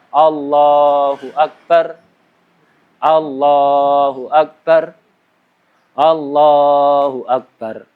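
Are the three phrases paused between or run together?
paused. The voice stops after each single phrase. The speaker calls it wrong. "bukan satu berhenti, satu berhenti, satu berhenti"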